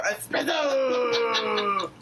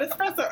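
First: Very slow, emphatic "Espresso." with every syllable drawn out; correct pronunciation. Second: Said in the usual way. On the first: Shown as a demonstration. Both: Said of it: "not espresso".

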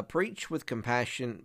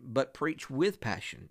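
First: Said in the usual way. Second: Passion drawn out slowly, with set apart from compassion; slow down and land preach with passion; slowed punchline. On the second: Shown as a demonstration. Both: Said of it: "when you're dealing with the dozing".

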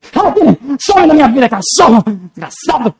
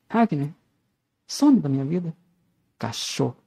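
First: Loud, high furious shout; acted rage. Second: Soft, low, restrained dismissal; low-key intention. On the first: Actor demonstrating intention to Ragnar, furious shout. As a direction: yell it to throw them out of your life. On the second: Actor showing one intention of the same line, quiet and restrained. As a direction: say it quietly, holding the anger back. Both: Shown as a demonstration. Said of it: "Eu vou falar isso com amor, com raiva".

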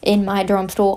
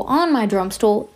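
First: Said in the usual way. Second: Slower, with "On" picked out; stress on On. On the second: Real, not acted. Correcting their own preposition, stress on "On". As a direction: lean on "On" as the corrected word.

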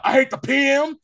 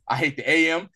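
First: Loud, high-pitched retold shout; real loud. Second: Said in the usual way. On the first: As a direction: shout it out like the defiant film character, much higher. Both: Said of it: "And then he says real loud".

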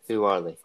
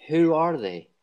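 First: Whispered repeat. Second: Who are they called out higher and louder; quizmaster punch. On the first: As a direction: breathe the question out as a teasing hush. Quizmaster repeats the question. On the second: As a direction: fire the question at the contestants. Quizmaster poses the question. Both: Real, not acted.

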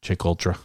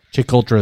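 First: Said in the usual way. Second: Put-on a light Boston accent on Chick Ultra, a bit louder; mild Boston accent imitation; Dan's Boston accent. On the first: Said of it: "as Dan says". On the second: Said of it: "as Dan says in his Boston accent".

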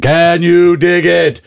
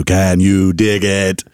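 First: High, slow, belted catchphrase; Shaq. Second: Slow, drawn-out catchphrase; Shaq. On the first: Basketball star dodging the question, high drawn-out Shaq catchphrase. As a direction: sing out the catchphrase, long and high. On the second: Basketball star plugging his bit, slow Shaq catchphrase. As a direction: stretch every word of the catchphrase. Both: Acted. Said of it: "I'm gonna go Shaq".

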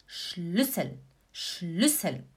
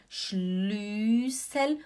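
First: "Schlüssel" with a short ü before ss; correct short vowel. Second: "Schlüssel" with a long drawn-out ü; wrong stretched vowel. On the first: Teacher giving the right version, short ü in Schlüssel. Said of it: "você fala". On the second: Teacher showing what not to say, overlong ü in Schlüssel. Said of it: "você não fala". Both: Shown as a demonstration.

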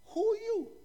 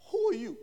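First: Higher repeated question. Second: Said in the usual way. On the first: Acted. Delegation asking John a second time, high-pitched questioning. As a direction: ask "who are you" high, in disbelief.

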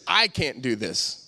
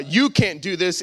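First: "I" leaned on, low and slow; slow, lowered line weighted on "I"; stress on I. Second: YOU stressed, pointed at the listener. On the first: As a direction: turn it inward, dragging out "I". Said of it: "it goes like this". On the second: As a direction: accuse with the weight on "You". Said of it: "it doesn't go from". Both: Shown as a demonstration.

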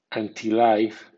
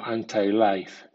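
First: Anti-life with anti ending in an ee sound; anti as AN-tee. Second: Anti-life with anti ending in an eye sound; anti as AN-tai. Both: Shown as a demonstration. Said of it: "suena anti o anti".

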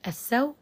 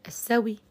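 First: السو- cut on the w glide, no final vowel; pure sukun. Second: السوي ending in a brief faint i after the w; rawm. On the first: Teacher shows first pausing form, pure sukun on the w. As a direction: say السو- as "as-saw", hamza dropped. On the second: Teacher shows second pausing form, rawm with faint final i. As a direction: say السوي as "as-sawi", a trace of kasra. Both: Shown as a demonstration. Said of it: "لي فيها سكون محض ورم".

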